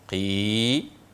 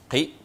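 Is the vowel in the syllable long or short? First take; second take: long; short. First: The vowel i is drawn out long. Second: The vowel i is said short.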